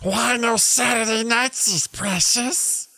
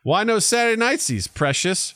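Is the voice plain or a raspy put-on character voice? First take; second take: raspy; plain. First: The voice is a raspy, put-on creature voice. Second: The voice is closer to a plain speaking voice. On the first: The speaker calls it right. "That's about the only accent I can do well is Gollum" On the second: The speaker calls it wrong. "Let me do that again in the right voice"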